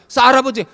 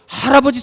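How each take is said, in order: First: The word begins with a tense 's' sound. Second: The word begins with an 'h' sound. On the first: A small child mispronounced the word. The speaker calls it wrong. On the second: This is the intended standard word. The speaker calls it right. "할아버지 찾잖아"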